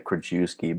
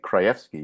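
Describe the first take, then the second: First: The name is pronounced as English spelling suggests. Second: The name is given its Polish pronunciation. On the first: It helps others match the name to its spelling. "it'll make it easier for them to put that with the way it's spelled" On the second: This is how the family normally says it. "You're you say it correctly, ... the right, you know, Polish way"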